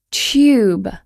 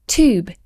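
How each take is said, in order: First: TUBE with a Y after the T; British Y sound. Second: TUBE as toob, no Y; American pronunciation. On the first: Teacher demonstrating the added Y in TUBE. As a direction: say tube as tyoob. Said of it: "we add a Y sound". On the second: Teacher imitating Americans, TUBE without the Y. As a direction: say tube with a plain oo. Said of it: "exactly as it's spelled". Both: Shown as a demonstration.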